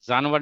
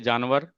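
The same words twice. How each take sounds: First: The word begins with a z sound. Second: The word begins with a j sound. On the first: The speaker calls it wrong. "जानवर नहीं बोलते हैं, we don't say ज" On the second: The speaker calls it right. "जानवर में जिम आएगा। ... We से जानवर"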